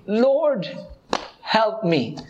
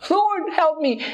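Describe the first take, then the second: First: Pleading woman. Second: High, urgent plea of a desperate mother; desperate pleading. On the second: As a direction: cry out to the Lord, much higher and more urgent. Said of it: "did not stop her". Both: Retold or imitated.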